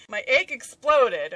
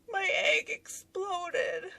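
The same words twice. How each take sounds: First: MY EGG EXPLODED said loud and slow; emphatic insistence. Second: High, slow, tearful whimper, imitated; mock crying. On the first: Real, not acted. Telling viewers why she looked so silly, loud emphatic "My egg exploded". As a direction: punch out "My egg exploded" loudly, slowly. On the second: Wife explaining to husband at her desk, mock-tearful whine. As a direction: wail it slowly in a high hammed-up cry. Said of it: "crying at my desk".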